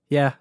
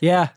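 First: It is said more quietly. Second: It is said more loudly.

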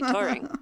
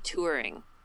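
First: The first vowel sounds like the vowel in 'tore'. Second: The first vowel sounds like the vowel in 'poor'. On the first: "You say it in a very American way" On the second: "I say touring"

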